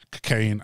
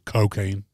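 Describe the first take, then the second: First: The first vowel is weak; the ending sounds like Caine. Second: The first vowel 'o' is strong and drawn out. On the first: "I used to say cocaine like Michael Caine" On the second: "so now I go hard on the O"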